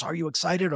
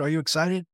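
First: Eager question, pitched higher; bubbling over for him; wife asking her husband, higher and eager; excited wife. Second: Repeated eagerly, higher and rising; pressing him with delight; wife insisting, high and excited. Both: Retold or imitated. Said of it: "and she goes".

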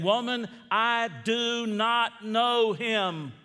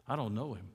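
First: Loud, high, drawn-out denial; emphatic denial. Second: Low, soft retold denial; understated denial. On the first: Acted. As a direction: deny it slowly and forcefully, voice raised. Peter's denial acted from scripture. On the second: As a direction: repeat the denial quietly, pitched down. Preacher repeats Peter's first lie.

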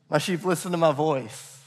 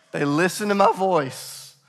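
First: Said in the usual way. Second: Voice cracking. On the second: Real, not acted. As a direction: voice cracks briefly on the line. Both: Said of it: "As my voice just cracked".

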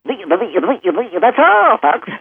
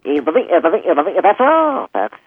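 First: High, stuttering early pig voice; early Porky Pig. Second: Later Porky Pig. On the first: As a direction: give the 1930s cartoon pig sign-off. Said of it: "the early Porky That's All, Folks was very". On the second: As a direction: make the pig close and tender. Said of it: "Chuck Jones, Porky Pig". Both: Shown as a demonstration.

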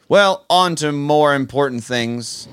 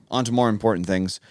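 First: Slow, louder mock-grand segue; grand announcement. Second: Said in the usual way. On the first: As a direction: announce it like big news.

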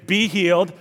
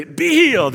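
First: Lightly voiced faith healer, a little higher; restrained mock healing command; Benny Hinn impression. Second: High, punched mock healing cry; Benny Hinn impression. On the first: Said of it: "And usually he'd say". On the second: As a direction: command a healing like a TV preacher, pitch leaping up. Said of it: "Benny Hinn would say".

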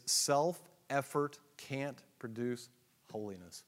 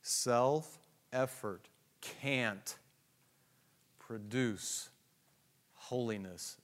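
First: Said in the usual way. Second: Self-effort can't produce holiness, every word stretched out very slowly; deliberate, drawn-out emphasis; emphatic, slow. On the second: Shown as a demonstration. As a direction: underline each word with your voice. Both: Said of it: "Underline it".

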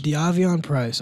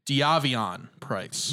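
First: Slow echo of "Diavion Price", syllable by syllable; "Diavion" repeated slowly, falling at the end; careful repeat. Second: Slow, careful "Diavion Price", every syllable spaced; "Diavion" said dee-AH-vee-on, drawn out; careful pronunciation. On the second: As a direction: spell out "Diavion" slowly. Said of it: "I learned how to pronounce". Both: Shown as a demonstration.

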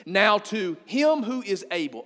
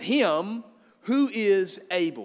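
First: Slow, weighty scripture read; measured, deliberate reading; reading scripture slowly. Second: "him ... who is able" slow, each word weighted with a pause after "him"; pause, then lean on "who is able"; stress on him who is able. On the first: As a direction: lean on each word of the verse. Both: Shown as a demonstration. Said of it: "underline that word".

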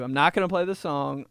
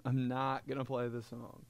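First: Said in the usual way. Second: Softer muttered repeat; quiet second take of the line. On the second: Shown as a demonstration. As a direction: drop it to an aside.

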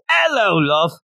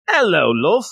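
First: Put-on "Hello, love." in a light Australian accent, opening "æloʊ". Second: A lightly posh, rising royal greeting; Queen of England. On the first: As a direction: greet like a cheery Aussie, "Hello, love.". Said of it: "It goes like this". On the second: Acted. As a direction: greet warmly like a mild Queen impression. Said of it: "That's the Queen of England".

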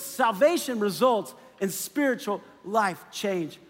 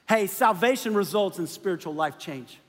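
First: Slow, every word weighed; slow deliberate restatement of "Salvation results in spiritual life change"; slow emphatic repeat. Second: Said in the usual way. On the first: Shown as a demonstration. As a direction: lay it down slowly so it sinks in. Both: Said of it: "Don't miss this".

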